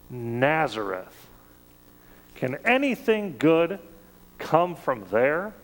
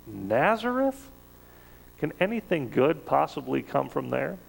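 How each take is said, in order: First: Disdainful scoff. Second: Incredulous sneer. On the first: Nathanael scoffing to Philip about Jesus's hometown, mild disdain. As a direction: sniff at the town as a backwater, unimpressed. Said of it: "in his disdain". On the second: Nathanael sizing up Jesus from Nazareth, mock incredulous sneer. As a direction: act amazed anyone would name that town. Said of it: "looks at this guy from Nazareth and says". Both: Retold or imitated.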